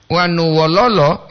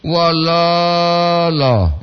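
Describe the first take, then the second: First: Wanu wololo, said the way that means sad; the sad-sounding version of wanu wololo; wrong Wanu wololo. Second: Wololo, very slow with every O long; correct wololo. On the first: Host shows the wrong way to say the greeting, lightly marked. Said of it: "itu kan sedih". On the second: Host demonstrates the correct greeting, very slowly drawn out. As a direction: draw out wololo carefully. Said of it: "Mesti wololo". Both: Shown as a demonstration.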